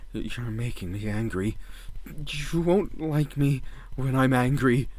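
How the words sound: It is said as a fearful warning.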